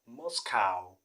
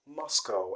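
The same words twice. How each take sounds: First: The last syllable rhymes with the word cow. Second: The last syllable does not rhyme with cow. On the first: The speaker calls it wrong. "many people do call it Moscow. Moscow because of the spelling cow" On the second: The speaker calls it right. "the correct pronunciation is Moscow"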